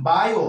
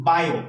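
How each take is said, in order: First: বায়ো split into two syllables, বা then য়ো; teacher showing the correct split of বায়ো; right way, two syllables. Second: বায়ো run together as a single syllable; showing the common mistake with বায়ো; wrong way, one syllable. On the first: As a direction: say বায়ো in two separate beats. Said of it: "বায়ো দুটো আলাদা হওয়ার কথা". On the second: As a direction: squash বায়ো into one beat. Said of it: "এই শব্দটা কিন্তু একসাথে করে ফেলে". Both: Shown as a demonstration.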